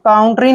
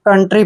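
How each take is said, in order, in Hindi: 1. पहला स्वर 'ow' जैसा सुनाई देता है। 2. पहला स्वर 'uh' जैसा सुनाई देता है। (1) "काउंट्री नहीं पढ़ना है" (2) "कंट्री पढ़ना है"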